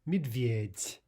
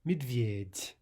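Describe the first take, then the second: No difference in how they are said.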